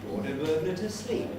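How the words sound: The phrase carries just one single rise.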